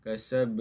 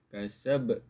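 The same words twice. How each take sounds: First: The final b stops flat without a bounce. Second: The final b is released with a bounce. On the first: The speaker calls it wrong. "tak kemas" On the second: The speaker calls it right. "Dia kena berlantun"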